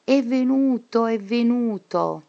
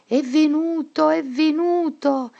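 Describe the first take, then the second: First: Endless mad cry. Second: High, loud, panicked cry; crazed shout. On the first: Teacher locked in the asylum crying out endlessly, high obsessive shout. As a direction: repeat it like an obsession. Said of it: "grida continuamente". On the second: Teacher gone mad fleeing the classroom, high panicked shout. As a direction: shriek it like someone losing her mind. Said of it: "e gridò". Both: A narrator's reading.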